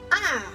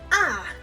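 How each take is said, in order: First: The pitch falls quickly and is short. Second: The pitch falls quickly and is short.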